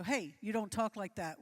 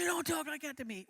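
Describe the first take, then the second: First: Retold firm reprimand, loud on the hey; mildly irritated, louder telling-off; irritated rebuke. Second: Retold angry shout, pitched high and loud; louder, irritated. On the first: Volunteer guard correcting a guest who swore in church, irritated. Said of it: "It irritated him". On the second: Irritated volunteer escalating a row with a guest, getting louder. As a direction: raise your voice in an irritated comeback. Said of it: "His voice got louder".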